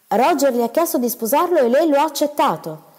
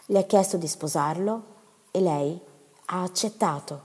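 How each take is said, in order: First: Higher, louder, weighing each word in disbelief; stunned husband echoing the news; slow incredulous repeat. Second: Said in the usual way. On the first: Acted. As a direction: repeat it back slowly, stunned. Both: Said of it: "ripeté lentamente mister Gibson".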